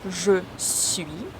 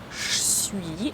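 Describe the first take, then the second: First: Both words are said fully and separately. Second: The two words merge into one short syllable.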